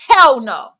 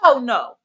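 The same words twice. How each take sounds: First: It is said with strong emphasis. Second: It is said plainly, without extra emphasis.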